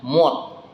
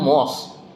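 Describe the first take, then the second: First: The word ends with a t sound. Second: The word ends with an s sound. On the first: The speaker calls it right. "S itu masuknya ke huruf T. Nah, jadi bacanya mod" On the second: The speaker calls it wrong. "harusnya kan mos"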